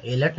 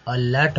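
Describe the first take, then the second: First: एलर्ट with "ay" as first vowel; the mistaken "ay-lart" for एलर्ट; wrong pronunciation. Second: अलर्ट opening on a short "uh"; अलर्ट with schwa first, not "ay"; correct pronunciation. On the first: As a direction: start एलर्ट like the letter A. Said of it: "इसका मतलब एलर्ट नहीं बोलेंगे". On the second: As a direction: say अलर्ट as "uh-LART". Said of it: "अलर्ट बोलेंगे". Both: Shown as a demonstration.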